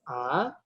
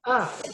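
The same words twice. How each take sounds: First: The pitch rises from middle to high. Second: The pitch falls sharply from high to low. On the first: "nada naik" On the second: "nada keempat yang disebut juga nada tajam"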